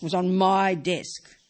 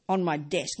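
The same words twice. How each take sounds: First: My stretched slow and louder; stress on my. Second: Said in the usual way. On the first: Shown as a demonstration. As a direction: lean hard on "my", slow and loud. Repeats "on my desk" for emphasis.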